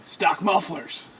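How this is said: It is said excitedly, like an exclamation.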